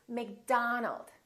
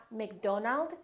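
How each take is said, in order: First: "McDonald" as "Mc-DAH-nald"; stretched "ah" in "McDonald"; open ah vowel. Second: "McDonald" as "Mc-DOH-nald"; long oh in "McDonald"; mispronounced "McDonald", O as spelled; wrong O demo. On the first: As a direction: say "McDonald" slowly, middle vowel wide. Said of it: "it's McDonald". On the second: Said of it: "Make sure that you don't say O". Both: Shown as a demonstration.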